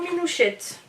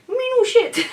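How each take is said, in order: First: It is said in a standard French accent. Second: It is said in a pied-noir French accent.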